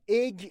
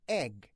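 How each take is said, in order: First: The vowel sounds closer to ey. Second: The vowel is a short pure e. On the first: The speaker calls it wrong. "اگ غلطه" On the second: The speaker calls it right. "ای نیستا"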